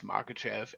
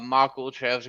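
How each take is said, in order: First: The middle of the name has no 'l' sound. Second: The middle of the name has an 'l' sound. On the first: It is the proper form of the name. The speaker calls it right. "I know how to say it. It's Makachev" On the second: It is a jokey habitual nickname. The speaker calls it wrong. "I'm not gonna stop calling him that"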